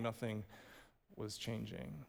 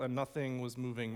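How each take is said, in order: First: Quiet. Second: Said in the usual way. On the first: Shown as a demonstration. Sermon repetition, dropping voice.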